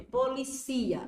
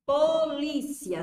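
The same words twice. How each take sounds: First: Policia said slowly, stress moved to ci, po-li-CI-a. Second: Polícia, slow and loud, stress on lí, po-LÍ-cia. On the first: Teacher showing students the verb policia, stress on ci. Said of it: "Se tirar o acento, policia". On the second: Teacher demonstrating to the class Polícia, stressed on lí. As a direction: draw out Polícia with the weight on lí. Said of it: "Se tirar o acento". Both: Shown as a demonstration.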